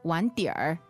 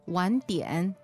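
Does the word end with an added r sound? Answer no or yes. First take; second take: yes; no. First: The word ends with an added r sound. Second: The word ends without an added r sound. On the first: "However, in the north, people may say" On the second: "Southerners, they don't like to add this r afterwards"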